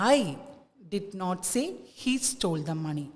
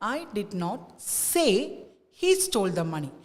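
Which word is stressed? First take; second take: I; say. First: The stress falls on the word I. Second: The stress falls on the word say. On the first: Someone else said it. "Stress ഐക്ക് കൊടുക്കുമ്പോൾ" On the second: It was conveyed by actions, not said aloud. "സേ എന്നുള്ള വേർഡിലേക്ക് നമ്മൾ stress കൊടുക്കുമ്പോൾ"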